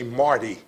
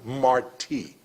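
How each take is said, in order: First: The stress is on the first syllable. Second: The stress is on the second syllable. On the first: A newcomer unfamiliar with local history says it. The speaker calls it wrong. "Some of the new residents that come to Tampa may say Marty Street" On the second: Someone who knows local history says it. The speaker calls it right. "the force of pronunciation is in the I"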